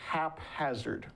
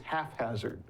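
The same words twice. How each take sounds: First: The p and h are said separately. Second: The p and h merge into an f sound. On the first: The speaker calls it right. "I never knew it was haphazard" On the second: The speaker calls it wrong. "P and H are right together, and what sound does that make?"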